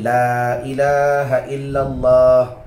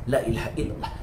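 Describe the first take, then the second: First: The long vowels are held for two beats. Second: The long vowels are cut short and quick. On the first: It is read as written in the Quran. "Kena baca dua harakat" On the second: It is repeated many times as remembrance. "boleh baca satu"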